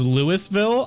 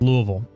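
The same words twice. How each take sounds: First: The name is said the common outsider way. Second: The name is said the local Kentucky way. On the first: "did you think it was Louisville" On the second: "the Kentucky pronunciation of Louisville is Louisville. That's how it's said"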